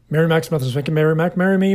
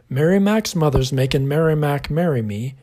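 First: It is said fast. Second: It is said slowly.

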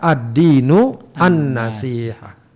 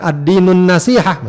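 First: The two words are kept apart. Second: The two words are run together. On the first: The first word is the subject and the second its predicate. The speaker calls it right. "lebih tepat kalau dibaca ad-dinu an-nasihah" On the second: The second word describes the first. The speaker calls it wrong. "Bukan ad-dinun nasihah, meskipun juga tidak salah mutlak"

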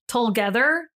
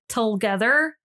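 Both takes have the same delivery.

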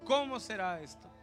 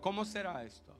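First: It sounds genuinely puzzled and unsure. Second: It sounds plain and matter-of-fact.

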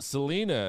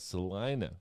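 First: The name is said the way outsiders say it. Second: The name is said the way locals say it. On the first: The speaker is not from the area. The speaker calls it wrong. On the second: The speaker sounds like someone from the area. The speaker calls it right.

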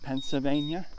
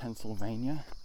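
First: The L is dropped. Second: The L is clearly pronounced. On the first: This is how locals say it. "will say Pennsylvania and drop the L" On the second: This is how non-locals say it. "Pennsylvanians don't say the L. We don't say Pennsylvania"

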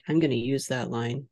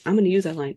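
First: It is said dryly, trailing off. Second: It is said with excited enthusiasm.

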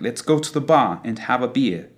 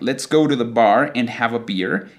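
First: The r sounds after vowels are dropped. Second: The r sounds after vowels are pronounced.

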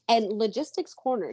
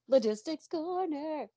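First: It is said in her normal speaking voice. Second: It is said in a special put-on voice.

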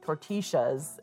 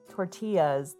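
First: The double L sounds like sh. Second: The double L sounds like a y.

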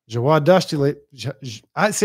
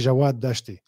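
First: The name is said with an English accent. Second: The name is said with an Arabic accent.

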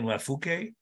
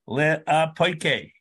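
First: The word is said as lafuke. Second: The word is said as le-apoike. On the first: The speaker calls it wrong. "I've been saying Lafuke" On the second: The speaker calls it right. "the way to pronounce it is Le'apoike"

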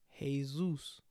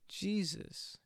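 First: The name begins with an H sound. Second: The name begins with a J sound. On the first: The speaker calls it right. "J is actually sounds like hey in Spanish" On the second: The speaker calls it wrong. "we're actually pronouncing it wrong"

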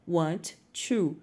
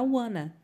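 First: The two words are said separately and fully. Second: The two words are run together and reduced.

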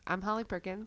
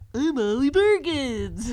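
First: It is said in her normal voice. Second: It is said in a Barney voice.

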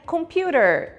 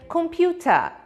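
First: The final syllable ends with a strong r sound. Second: The final syllable ends in a soft schwa, no r. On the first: "um americano diria computer. Esse no final é uma característica do sotaque americano" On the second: "Já um britânico falaria computer. Esse se chama schwa"

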